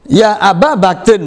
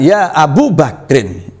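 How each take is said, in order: First: The vowel after Ab is an 'a'. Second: The vowel after Ab is a 'u'. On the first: The speaker calls it right. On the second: The speaker calls it wrong. "bukan ya Abu Bakrin"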